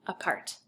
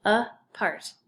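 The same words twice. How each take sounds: First: Said in the usual way. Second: "Apart" as a clear "uh", then "part"; split by syllable. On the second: Shown as a demonstration. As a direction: break "Apart" between its two syllables. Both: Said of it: "So it's two syllables".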